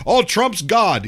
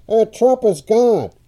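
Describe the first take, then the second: First: Talk radio caller. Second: Higher, slow, tinny AM-radio voice. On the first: Retold or imitated. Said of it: "you know". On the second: Shown as a demonstration. Host demos how AM radio mangles a caller, slow tinny. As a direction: make it sound like a crackly AM broadcast. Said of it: "it sounds more like this".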